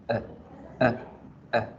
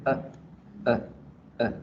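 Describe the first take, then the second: The two takes are said the same way.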